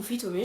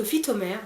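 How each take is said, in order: First: "Phytomé" with the final R dropped; Phytomé without final R. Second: "Phytomère" with the last R sounded; Phytomère with final R. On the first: Vlogger unsure of the brand name, offering "Phytomé" without R. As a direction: say "Phytomé" ending on an "é" vowel. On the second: Vlogger trying a brand name for viewers, "Phytomère" with final R. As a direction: say "Phytomère" ending in an open "mère". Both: Shown as a demonstration. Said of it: "je sais pas comment vous le prononcez".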